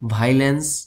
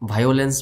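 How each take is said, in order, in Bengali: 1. শব্দটি একটি 'vai' ধ্বনি দিয়ে শুরু হয়। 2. শব্দটি 'vi-o' স্বরধ্বনির আলাদা ক্রম দিয়ে শুরু হয়। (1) "এটাকে বলতে হবে ভাইলেন্স" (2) "অনেকে বলি ভায়োলেন্স ভায়োলেন্স বলা যাবে না"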